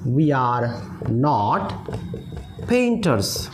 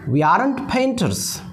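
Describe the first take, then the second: First: Are and not are said as separate full words. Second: Are and not merge into one short word.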